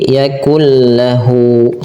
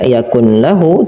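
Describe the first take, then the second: First: The n merges into a doubled l sound. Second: The n sound is kept before the l. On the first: The speaker calls it right. "tapi yakul lahu" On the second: The speaker calls it wrong. "tidak lagi dibaca yakun lahu"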